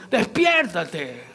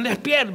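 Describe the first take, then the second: First: Despiértate stretched very slowly through a laugh; drawn-out laughing wake-up. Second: Said in the usual way. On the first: Retold or imitated. Sailors shaking sleeping Jonah, slow laughing call. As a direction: pull despiértate out long, chuckling. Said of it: "Imagínate que lo movieron". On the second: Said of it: "lo despiertan".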